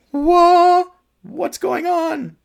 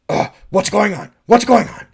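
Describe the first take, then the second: First: Very high, loud panicked cry; panicked shriek. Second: Said in the usual way. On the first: Shown as a demonstration. Director showing the panic he wanted from Sarah, shrieking. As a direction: shriek it as if out of your mind. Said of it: "I want a little more, like". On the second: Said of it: "not just".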